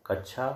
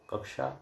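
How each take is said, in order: First: कक्षा said as kachha, with chh; कक्षा with a chh sound instead of ksh; wrong chha sound. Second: कक्षा said as kaksha, with ksh; कक्षा with a clear ksh cluster; correct ksh. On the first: Teacher showing the mistake, chh. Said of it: "क्ष के स्थान पर छ". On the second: Teacher giving the correct ksh sound. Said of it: "एक कक्षा class का सूचक है". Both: Shown as a demonstration.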